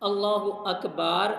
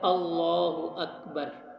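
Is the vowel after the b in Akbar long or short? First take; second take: long; short. First: The vowel after the b is long. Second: The vowel after the b is short. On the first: The speaker calls it wrong. "बा को लंबा नहीं करना" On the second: The speaker calls it right. "इसका दुरुस्त तलफ़ुज़ है"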